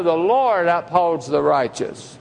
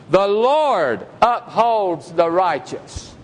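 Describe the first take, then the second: First: Said in the usual way. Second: Slow solemn reading. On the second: Acted. Verse read, then repeated.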